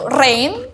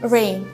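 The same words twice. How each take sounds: First: The r is a clear, strong Indonesian r. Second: The r is a soft English r. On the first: The speaker calls it wrong. "cara pengucapan bahasa Indonesia" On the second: The speaker calls it right.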